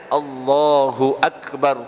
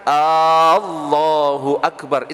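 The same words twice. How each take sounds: First: The first vowel is said short. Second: The first vowel is said long. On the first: God is the Greatest. The speaker calls it right. "yang benar itu kan bacanya Allahu Akbar" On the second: Is God the Greatest? The speaker calls it wrong. "A-nya dipanjangkan"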